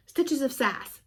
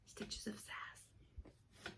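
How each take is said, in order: First: Said in the usual way. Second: Very slow whispered repeat; 非常缓慢地轻声耳语. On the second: Real, not acted.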